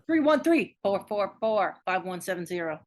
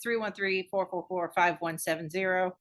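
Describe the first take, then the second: First: The number is read fast and noticeably louder. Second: The number is read fast at normal volume.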